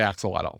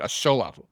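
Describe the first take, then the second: First: It begins with 'aks', the usual English pronunciation. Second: It begins with 'ash', stress on second-to-last syllable. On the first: The speaker calls it wrong. "So never say axolotl" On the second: The speaker calls it right. "Second to last syllable gets the emphasis"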